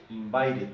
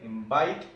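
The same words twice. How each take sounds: First: "invited" with -ed as its own syllable; extra syllable. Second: Said in the usual way. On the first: Shown as a demonstration. Teacher showing this one differs, "invited" with an added -ed syllable. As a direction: say "invited" in three beats, in-vi-ted. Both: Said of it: "y acá es diferente".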